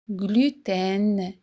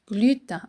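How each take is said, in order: First: The ending has a clearly sounded N consonant. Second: The ending is a nasal vowel like 'un'. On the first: The speaker calls it right. "On fait sonner le N à la fin" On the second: The speaker calls it wrong. "Beaucoup de gens disent gluten comme le chiffre un"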